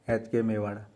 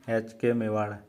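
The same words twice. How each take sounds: The two takes are said the same way.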